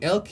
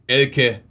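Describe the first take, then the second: First: The name is said softly, without force. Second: The name is said forcefully, with aggression. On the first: The speaker calls it wrong. "instead of saying Elke" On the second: The speaker calls it right. "you just say it with a little bit more aggression"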